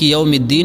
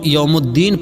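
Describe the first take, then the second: First: The vowel after the m is 'i'. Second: The vowel after the m is 'u'. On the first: The speaker calls it right. "मीम के नीचे ज़ेर" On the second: The speaker calls it wrong. "कुछ लोग यौमुद्दीन पढ़ते हैं, यानी मीम के नीचे ज़ेर की जगह मीम पर पेश पढ़ते हैं"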